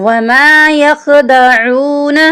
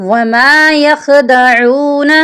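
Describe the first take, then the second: No difference in how they are said.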